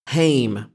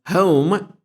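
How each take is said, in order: First: The vowel rhymes with the vowel in name. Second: The vowel rhymes with the vowel in foam. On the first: The speaker is lower working class. "As if it rhymes with name" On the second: The speaker is middle class. "as home مثل foam"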